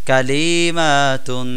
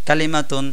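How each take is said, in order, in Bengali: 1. শব্দটি ধীরে বলা হচ্ছে, স্বরধ্বনি টেনে বলা হচ্ছে। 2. শব্দটি দ্রুত বলা হচ্ছে, স্বরধ্বনি টানা হচ্ছে না। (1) "এভাবে বললে অবশ্যই ভুল হবে" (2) "সবগুলোর উচ্চারণ আমরা দ্রুত করব"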